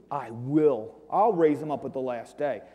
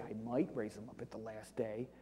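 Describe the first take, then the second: First: Firm stress on "I will" and "I'll"; right reading. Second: Quiet, low, stress on "might"; wrong reading. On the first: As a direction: make "I'll" a sure promise. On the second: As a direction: lean on "might", as the wrong version. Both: Shown as a demonstration. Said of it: "it doesn't say".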